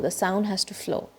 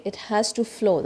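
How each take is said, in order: First: Whispered, slow "flow"; whispered lesson close. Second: Said in the usual way. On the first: Shown as a demonstration. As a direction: breathe the words out softly.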